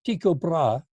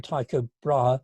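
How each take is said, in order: First: Tycho said the Danish way, TEE-ko; Danish pronunciation. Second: Tycho said the English way, TIE-ko; English pronunciation. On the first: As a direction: say "Tycho" with a long ee, as Danes do. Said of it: "the Danes would call him". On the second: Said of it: "we call him Tycho Brahe". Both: Shown as a demonstration.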